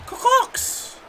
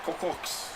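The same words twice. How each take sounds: First: Much higher squeaky mock Boston Car corks; Car corks pitched way up in a cartoon Boston accent. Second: Breathy mock Boston car corks; Boston accent, Car corks with dropped r's; Car corks whispered in a jokey Boston accent. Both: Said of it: "He sounds like I'm from Boston".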